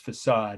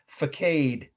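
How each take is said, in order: First: The word is pronounced the standard way. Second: The word is pronounced the way it is spelled. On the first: The speaker calls it right. "It's facade, of course" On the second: The speaker calls it wrong. "the mispronunciation of my Indiana relatives helped me spell words like this"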